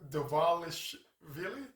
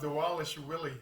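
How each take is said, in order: First: The consonants in the name sound like V. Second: The consonants in the name sound like W.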